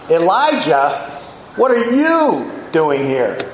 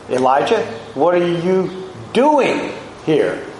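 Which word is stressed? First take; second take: you; doing. First: The stress is on the word you. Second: The stress is on the word doing. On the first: Of all people, this person should not be here. "Of all people, Elijah" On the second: The activity itself is being questioned. "engaging in self-pity"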